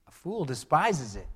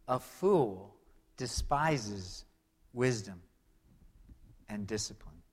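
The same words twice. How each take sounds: First: "despises" hit hardest, falling; stress on despises. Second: "A fool ... despises ... wisdom" read slowly with long pauses between words; slow scripture reading. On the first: Pastor repeating the verse, stressing despises. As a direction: lean on the word despises. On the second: Pastor reading Proverbs aloud, slow and measured. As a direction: lay out each word of the verse. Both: Shown as a demonstration. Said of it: "another phrase that you'll read".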